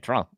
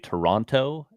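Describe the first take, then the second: First: It is pronounced the Canadian way. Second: It is pronounced the European way. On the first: "Canadians say Toronto" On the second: "Europeans say Toronto"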